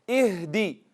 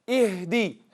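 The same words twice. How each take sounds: The two takes are said the same way.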